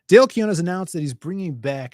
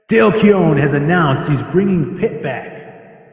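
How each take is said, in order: First: It is read in his normal voice. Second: It is read in a put-on crazy cool voice.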